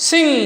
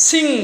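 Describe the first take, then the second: Both takes have the same delivery.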